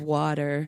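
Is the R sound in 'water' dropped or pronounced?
pronounced. The R sound at the end is pronounced. It sounds normal to local listeners. "I have to roll my R's here"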